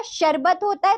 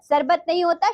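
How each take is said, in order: First: शरबत said with a clear sh at the start; correct sh sound. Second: सरबत said with a plain dental s, as the wrong form; wrong s sound. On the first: Teacher giving pupils the correct word, sh sound. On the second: Teacher showing pupils the misspelling, s sound. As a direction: say सरबत with a hissing s, not sh. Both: Shown as a demonstration. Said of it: "सा के स्थान पर आप श लिखेंगे".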